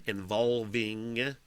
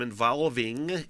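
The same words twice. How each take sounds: First: INVOLVING drawn out slowly, each syllable clear; careful enunciation. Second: Said in the usual way. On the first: Real, not acted. Fixing their reading of the news story, "involving" slowly enunciated. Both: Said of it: "involving enunciation".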